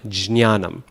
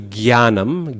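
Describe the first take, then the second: First: It begins with a j sound then nasal ny. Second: It begins with a g sound without a nasal. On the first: This is the reconstructed original pronunciation. "the correct pronunciation originally was jnya" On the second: This is the modern Hindi pronunciation. "Hindi speakers do gyanam"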